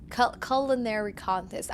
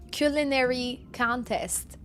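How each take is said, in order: First: "culinary" opening with a short CULL; "culinary" with first syllable rhyming with "dull"; "culinary" as CULL-inary. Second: "culinary" slowly, opening with KYOO; drawn-out "culinary", first syllable like "cue"; "culinary" as KYOO-linary. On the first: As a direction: restart on "Cul-", then "culinary" as CULL-inary. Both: Shown as a demonstration. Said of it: "I love how I'm making fun".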